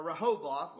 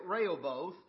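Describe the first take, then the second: First: Rehoboth retried as "ruh-HO-both"; alternative pronunciation. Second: Rehoboth tried roughly as "RAY-ul-both"; unsure pronunciation. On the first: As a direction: say "Rehoboth" with the stress on HO, as a correction. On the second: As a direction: say "Rehoboth" with a RAY opening, as a first attempt. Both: Shown as a demonstration. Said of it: "however you say it".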